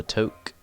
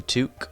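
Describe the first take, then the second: First: "toque" said as "toke", rhyming with "oak"; long o pronunciation. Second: "toque" said as "took", long oo; long oo pronunciation. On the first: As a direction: say "toque" with an oh vowel. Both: Shown as a demonstration. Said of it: "I don't know how to pronounce it".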